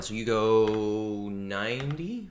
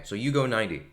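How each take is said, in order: First: "ninety" slowly, rising like a question; questioning rise. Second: "go" stressed, falling to a firm close; falling statement. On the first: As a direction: ask "So you go ninety?" with a rising end. DM checks the speed. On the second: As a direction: state "So you go ninety." flatly, falling. DM confirms the speed. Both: Real, not acted.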